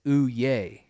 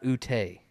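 First: "Uye" slowly as oo-YAY, no T; correct Pig Latin. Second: "Ute" as oo-TAY, with a T; wrong Pig Latin. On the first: Correcting co-host's Pig Latin, "Uye" as oo-yay. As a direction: say "Uye" with a y glide into ay. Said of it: "It's not Ute". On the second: Showing co-host the mistake, "Ute" as oo-tay. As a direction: put a hard T into "Ute", ending tay. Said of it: "There's no T in U". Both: Shown as a demonstration.

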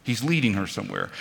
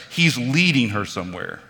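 First: Quicker and softer repeat of the line; hushed restatement to let it sink in; soft echo. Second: LEADING leaned on, falling; firm first statement of the point; stressed statement. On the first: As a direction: let it land as a quiet aside. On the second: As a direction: press on the word leading. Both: Shown as a demonstration.

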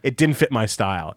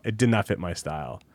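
First: Said in the usual way. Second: "did not" spelled out as two firm words, lower and softer; quiet, low insistence on "did not"; emphatic restatement. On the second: Real, not acted. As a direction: drop pitch and volume, separate "did not" for finality.

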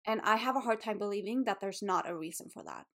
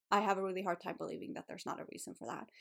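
First: Said in the usual way. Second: Softer, faster, welling up as she repeats it; real emotion rising, voice dropping away; getting emotional. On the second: Real, not acted. To her listeners about her body, softly emotional. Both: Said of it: "I'm getting a little bit emotional".

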